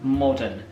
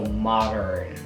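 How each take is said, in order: First: The final R is not pronounced. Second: The final R is strongly pronounced. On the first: "in the British accent, you have modern" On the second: "with a really, really strong and stressed R sound at the end"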